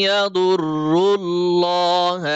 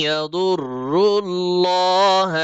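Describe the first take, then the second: Both takes have the same delivery.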